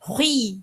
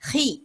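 First: The syllable is said heavily with a rounded glide. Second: The syllable is said lightly as a plain vowel. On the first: The speaker calls it wrong. "ஹெவியா சொல்லணுங்கிறதுனால ஹுய் ஹுயின்னு இப்படி சொலட்டி அடிச்சு நம்ம சொல்லக்கூடாது" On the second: The speaker calls it right. "இப்படி சாதாரணமா சொல்லுங்க"

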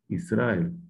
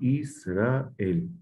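First: The syllables run together without separation. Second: Each syllable is clearly separated from the next. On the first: The speaker calls it wrong. "O Israel. No" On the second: The speaker calls it right. "cada sílaba, su respiración"

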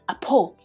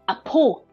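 First: The second syllable starts with a p sound. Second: The second syllable starts with a p sound.

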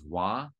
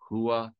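First: The word starts with a w sound, no h. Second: The word starts with a clear h sound. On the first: This is the Mandarin way of saying it. "HUA in Mandarin is Hua" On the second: This is the Thai way, meaning head. "HUA in Thai is Hua"

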